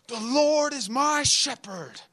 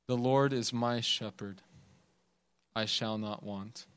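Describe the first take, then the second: First: High, slow, proclaiming the psalm; hyped young preacher. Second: Lower, soft and unhurried reading; gentle old preacher. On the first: Young preacher at the pulpit performing for the crowd, hyped and high. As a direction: belt it like a preacher chasing applause. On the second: Old preacher reading the psalm gently, not hyping anyone, soft and low. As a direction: read it quietly, like you mean every word. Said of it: "really gently". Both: Retold or imitated.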